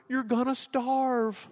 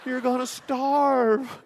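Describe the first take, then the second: First: Tearful mom. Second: High, slow, wailing repeat of the warning; a mother's tearful plea, stretched out and pitched high; crying mom. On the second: Mother hears son is leaving his job, high slow crying plea. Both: Retold or imitated. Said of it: "She starts crying".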